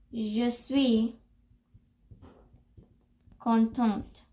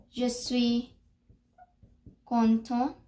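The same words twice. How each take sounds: First: "Je suis ... contente" in separate parts, final T heard; long pause, then "contente" ending on a T; pronunciation model, T sounded. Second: "Je suis ... content" in separate parts, no final T; long pause before "content", ending without a T; pronunciation model, silent T. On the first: Teacher modelling the second line, paused and T sounded. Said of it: "for the second line, you will say". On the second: Teacher modelling for learners, paused and T silent. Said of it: "the way you will pronounce it". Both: Shown as a demonstration.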